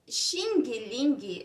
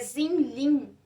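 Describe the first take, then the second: First: It is said with a Brazilian Portuguese pronunciation. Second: It is said with an attempted Mandarin pronunciation. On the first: "é a nossa pronúncia" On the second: "Acredito que no mandarim"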